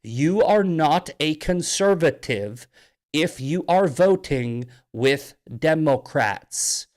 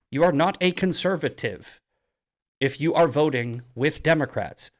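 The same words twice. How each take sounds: First: Slow and deliberate, word by word; slowed-down, pointed repeat. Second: Said in the usual way. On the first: Shown as a demonstration. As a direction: spell it out slowly for Massie. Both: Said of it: "I'll say that as slow as possible".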